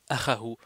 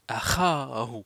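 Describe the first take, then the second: First: The vowel is short, not lengthened. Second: The vowel is drawn out and lengthened. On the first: The speaker calls it wrong. "Au lieu de dire" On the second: The speaker calls it right. "on dit"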